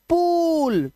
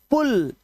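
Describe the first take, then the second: First: पूल with the oo held long, higher; long vowel. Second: पुल with a short, quick u; short vowel. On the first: Teacher contrasting it with pull, long vowel पूल. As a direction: draw पूल right out. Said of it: "long vowel sound". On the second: Teacher showing the door-sign word, short vowel पुल. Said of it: "short vowel sound". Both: Shown as a demonstration.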